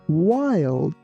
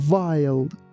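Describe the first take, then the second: First: The word begins with a W sound. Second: The word begins with a V sound. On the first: The speaker calls it right. "we say wild. Your lips shouldn't touch each other" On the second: The speaker calls it wrong. "letter W is not pronounced like V. We don't say wild"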